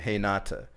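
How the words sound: The name begins with an H-like Brazilian R.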